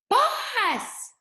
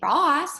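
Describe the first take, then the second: First: It is screamed loudly, like an exclamation. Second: It is said calmly, at normal loudness.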